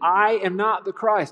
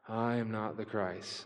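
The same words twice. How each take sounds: First: It is said with gusto and conviction. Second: It is said flatly, without enthusiasm.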